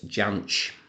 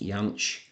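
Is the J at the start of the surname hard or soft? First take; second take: hard; soft. First: The surname begins with a hard J sound. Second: The surname begins with a soft J sound. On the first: This is how the man himself said his name. "I'm going to pronounce it the way that he pronounced it" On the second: This is the technically correct form of the name. "technically his surname should be pronounced Jansch"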